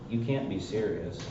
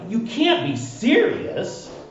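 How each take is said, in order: First: It is said flatly, without strong emotion. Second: It is said with strong, exclaiming emotion. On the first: This is not how the character said it. The speaker calls it wrong. "Notice that he didn't say" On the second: The exclamation point shows extreme emotion. The speaker calls it right. "Exclamation point means extreme emotion"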